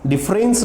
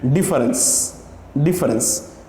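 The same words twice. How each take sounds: First: डिफरेंस said as "dif-rens", two syllables; the incorrect way to say डिफरेंस; wrong pronunciation. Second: डिफरेंस said in three syllables, "di-fe-rens"; the correct way to say डिफरेंस; correct pronunciation. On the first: Teacher showing students the wrong डिफरेंस. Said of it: "डिफरेंस नहीं होता है". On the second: Teacher modelling the right डिफरेंस for students. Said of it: "ये इसका सही transcription है". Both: Shown as a demonstration.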